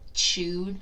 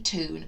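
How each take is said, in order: First: The vowel is a 'yoo' sound. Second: The vowel is a plain 'oo' sound. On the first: The speaker calls it right. "we say tune" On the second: The speaker calls it wrong. "We don't say tune"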